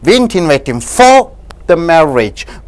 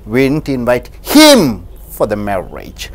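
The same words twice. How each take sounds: First: The stress falls on the word "for". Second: The stress falls on the word "him". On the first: He was invited for something else. "if you stress on for" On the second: Someone else was invited, not him. "if you stress on the word him"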